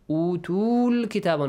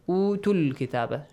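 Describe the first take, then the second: First: The vowel before kitaba is drawn out long. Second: The vowel before kitaba is short and quick. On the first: The speaker calls it wrong. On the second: The speaker calls it right. "Short and fast"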